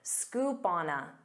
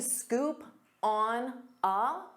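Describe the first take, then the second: First: The words run together as one word. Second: The words are separated by short pauses. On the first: The speaker calls it right. "you can pronounce this as one word" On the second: The speaker calls it wrong. "with pauses"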